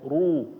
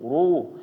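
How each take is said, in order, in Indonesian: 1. R berat dengan bibir membulat. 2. R berat dengan bibir membulat.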